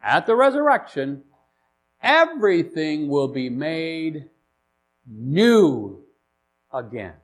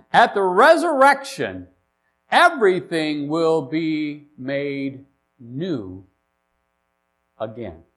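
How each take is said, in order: First: "At the resurrection" lifted, then "new" set apart; repeated for emphasis. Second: Said in the usual way. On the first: Shown as a demonstration. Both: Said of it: "Let me say that again for emphasis".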